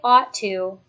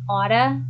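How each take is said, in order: First: Both words are said fully and separately. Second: The words blend into one reduced form.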